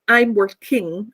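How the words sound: The main stress falls away from 'work'. The speaker calls it wrong. "it's not the auxiliary or the gerund. I don't say I'm working"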